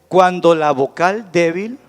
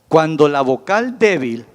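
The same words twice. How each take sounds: Both takes have the same delivery.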